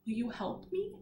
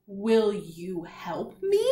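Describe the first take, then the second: First: Said in the usual way. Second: Very slow, each word drawn out, rising at the end; slow read-along. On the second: Shown as a demonstration. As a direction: stretch each word so the class can follow. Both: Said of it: "Let's read it all together".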